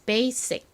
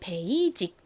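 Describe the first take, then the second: First: It is said American-style with a strong s. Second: It is said in a Korean-style pronunciation. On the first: "실제 미국 발음은 basic 이렇게 발음이 납니다. 거의 어, 성시옷처럼 세게 발음이 나죠" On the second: "한국식으로는 베이직"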